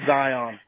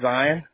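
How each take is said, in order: First: The word ends with a full on sound. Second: The word ends with a plain n sound. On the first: This is how the name is actually spelled. "but it is Zion" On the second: This is how locals in the region say it. "Over here in Utah, we say Zion"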